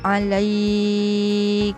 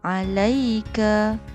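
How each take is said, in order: First: The 'ai' vowel sound is held long. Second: The 'ai' vowel sound is kept short. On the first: The reader stops on this word. "ketika waqaf" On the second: The reader joins this word to the next. "ketika wasal ... tanpa perlu panjangkan bacaan"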